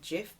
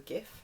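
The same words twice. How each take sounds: First: The word begins with a soft j sound. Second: The word begins with a hard g sound. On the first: This is the form others claim is correct. "supposed to be pronounced GIF, but to me that's just either a lemon or a cleaning product" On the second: This is the form the speaker personally uses. "so GIF"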